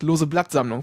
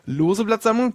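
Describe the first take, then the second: First: The stress falls on the word Blattsammlung. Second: The stress falls on the word lose. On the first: It is a leaf collection that happens to be loose. The speaker calls it wrong. "der Nicht-Jurist sagt lose Blattsammlung" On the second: It is a collection of loose leaves. The speaker calls it right. "Der Jurist sagt lose Blattsammlung"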